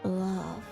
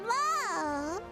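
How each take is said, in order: First: It is said in a deeper voice. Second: It is said in her normal voice.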